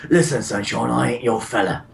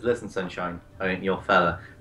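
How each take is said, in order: First: It is spoken in a Cockney accent. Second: It is spoken in a plain, neutral accent.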